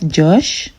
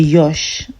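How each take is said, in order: First: The name begins with a J sound. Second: The name begins with a Y sound. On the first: The speaker calls it wrong. "instead of Josh" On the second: The speaker calls it right. "we say Yosh"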